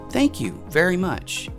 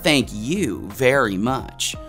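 First: It is said in a sincere, grateful tone. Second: It is said in a sarcastic, mocking tone. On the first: Genuine thanks are meant. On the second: The opposite of thanks is meant.

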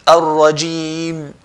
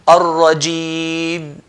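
No difference in how they are said.

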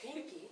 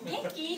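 First: It is said in a low, gloomy tone. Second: It is said in a bright, cheerful tone.

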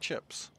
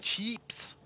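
First: It is said in the speaker's own accent. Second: It is said in a put-on, exaggerated accent. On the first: "I'm not saying chops. No, I'm saying chips" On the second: "I'll say it in Australian"

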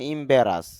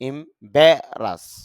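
First: The second syllable is not stressed. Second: The second syllable is clearly stressed. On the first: The speaker calls it wrong. "এখানে খেয়াল করেন লেখা আছে ইম্বারাস" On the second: The speaker calls it right. "এখানে যদি চাপ দেই উচ্চারণটা হবে ইম্বারাস"

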